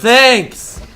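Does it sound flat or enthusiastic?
enthusiastic. It sounds warm and enthusiastic.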